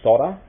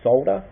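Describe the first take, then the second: First: The word is pronounced the American way. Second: The word is pronounced the English way. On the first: "I know a lot of Americans say solder" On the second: "I know the English say solder"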